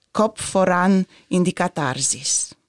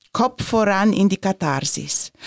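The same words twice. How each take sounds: No difference in how they are said.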